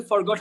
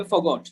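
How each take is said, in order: First: "forgot" with the r sounded in the first syllable; R pronounced. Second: "forgot" as fuh-got, no r sound; r-less "forgot", modelled for learners; silent R. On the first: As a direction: say "forgot" as for-got, r audible. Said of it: "এখানে কিন্তু forgot হবে না". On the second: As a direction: drop the r in "forgot". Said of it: "এখানে আর উচ্চারণটা কিন্তু হবে না". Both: Shown as a demonstration.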